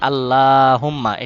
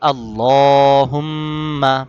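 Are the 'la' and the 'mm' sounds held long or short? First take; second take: short; held. First: The 'la' and 'mm' sounds are short. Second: The 'la' is drawn out; the 'mm' hum is held. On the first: The speaker calls it wrong. "এটা ভুল" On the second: The speaker calls it right. "বলতে হবে কি আল্লাহুম্মা। আল্লাহ, লতে টান, হুম এখানে গুন্না।"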